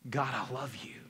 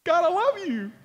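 First: Low, soft words of love; subdued devotion. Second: High, loud burst of grateful love; exuberant gratitude. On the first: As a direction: say it quietly, pitched low. Same words on hard days. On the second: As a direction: exclaim it joyfully, pitched way up. Delighted on a good day. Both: Acted.

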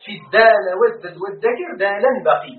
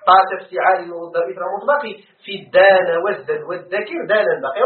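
First: In الدان والزد والذكر دالا بقي each word set apart; reciting verse again. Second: Reciting verse. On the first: (إنشاد بيت ابن مالك ببطء) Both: Shown as a demonstration. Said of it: "ذكر ابن مالك".

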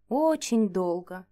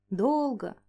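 First: Slowly, stretching очень long; slow weary drawl. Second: Said in the usual way. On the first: A narrator's reading. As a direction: drag out очень долго wearily. Slow drawn-out weariness.

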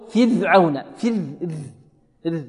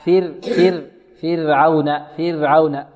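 First: فرعون with ر blurred toward a dh sound; over-thinned ra. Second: فرعون with a clearly tapped light ر; fir-awna, tongue tip sounding the ر lightly in فرعون; ra from its proper place. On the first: Teacher imitating students who overdo the thinning, over-thinned ra. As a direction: say فرعون as fidh-awna, the ر lisped into ذ. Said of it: "البعض ربما يبالغ في الترقيق". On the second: Teacher models the correct articulation for students, ra from its proper place. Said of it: "وكذلك تخرج من مخرجها". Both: Shown as a demonstration.

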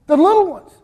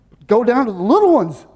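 First: The little ones lifted high and louder; emphasized little ones. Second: Said in the usual way. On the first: Shown as a demonstration. Preacher stresses The little ones to the church. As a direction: lean hard into The little ones.

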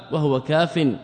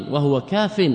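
First: كاف said kaafin, with a nunation ending; with tanween. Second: كاف cut off as bare kaaf; pausal, no tanween. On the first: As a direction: end كاف on the full -in. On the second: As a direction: stop dead on كاف, no ending. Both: Shown as a demonstration. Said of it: "هكذا كاف أو كاف؟".

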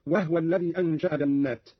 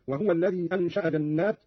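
First: وهو in two syllables, wah-wa; vowelless ha. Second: Said in the usual way. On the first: Shown as a demonstration. Teacher shows the same rule, وهو pronounced wahwa. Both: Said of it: "قرأ قالون بإسكان الهاء".

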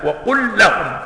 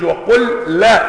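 First: "وقل لهم" with a single doubled ل; correct merged lam. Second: "وقل لا" with the ل sounds split, slow and higher; wrong separated reading. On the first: Teacher giving the correct merged "وقل لهم". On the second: Teacher showing the wrong unmerged "وقل لهم". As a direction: read "وقل لا" without merging the ل. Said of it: "ما بيقولش". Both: Shown as a demonstration.

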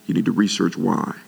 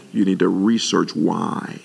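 First: Said in the usual way. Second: Slow emphatic. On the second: Shown as a demonstration.

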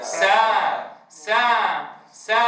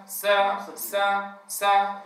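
First: سا with the mouth fully open and the alif held clear; سا said open and full, the right way; mouth wide open. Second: سا cut short with a barely opened mouth; سا said tight and short, the wrong way; mouth too closed. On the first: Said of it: "والأصل أن يقول موسى". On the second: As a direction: clip سا short, jaw nearly shut. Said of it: "فينطق البعض فيقول موسى". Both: Shown as a demonstration.

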